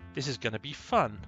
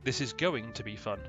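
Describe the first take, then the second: First: The words are run together and reduced. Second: Every word is clearly and fully pronounced. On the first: The speaker calls it wrong. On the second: The speaker calls it right.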